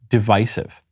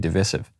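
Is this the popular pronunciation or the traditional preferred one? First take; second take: traditional; popular. First: It uses the traditional, preferred pronunciation. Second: It uses the popular, newer pronunciation. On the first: The speaker calls it right. "the preferred pronunciation is divisive" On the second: The speaker calls it wrong. "I just say it wrong. I find it easier to say divisive"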